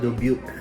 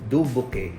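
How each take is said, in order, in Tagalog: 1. Binibigkas ito sa lokal na pagbigkas na Amerikano. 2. Binibigkas ito sa estilong Pilipino. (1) "Pero ito" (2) "kung Pinoy tayo, ang pronunciation natin is"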